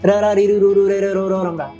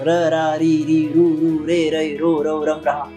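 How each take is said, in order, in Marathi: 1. अक्षरे थोडी जलद म्हटली जात आहेत. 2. अक्षरे सामान्य वेगाने म्हटली जात आहेत. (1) "मग थोडं फास्ट म्हणायचं" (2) "हे आधी नॉर्मल म्हणायचं"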